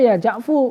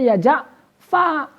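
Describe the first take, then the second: First: The name ends with a 'u' vowel. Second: The name ends with an 'a' vowel. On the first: The shortened name is treated as a complete word. "menjadikan Ja'fu itu sebagai kalimat yang utuh ... mabni dhom" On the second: The dropped final letter is still taken into account. "ru-nya dibuang, berarti sisanya berarti dibaca ya Ja'fa"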